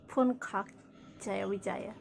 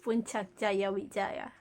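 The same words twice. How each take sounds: First: The c in Puncak sounds like k. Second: The c in Puncak sounds like ch. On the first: The speaker calls it wrong. "It's not" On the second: The speaker calls it right. "We say C as ch"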